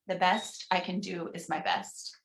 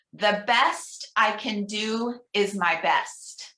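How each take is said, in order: First: Softer, murmured repeat; soft responsive echo. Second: Slow, deliberate leader's reading; slow affirmation reading. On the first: Minister quietly repeating the affirmation with the congregation, softer. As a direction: echo it gently, as the congregation would. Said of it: "pause and encourage you at home". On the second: Minister reading an affirmation aloud for the congregation, slow. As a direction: lay each word down slowly for them to echo. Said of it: "I'm gonna read each one". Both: Shown as a demonstration.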